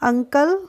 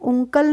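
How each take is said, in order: First: The first vowel is like the vowel in cut. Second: The first vowel is like the vowel in put. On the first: The speaker calls it right. "हम बोलेंगे अंकल" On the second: The speaker calls it wrong. "उंकल नहीं बोलेंगे"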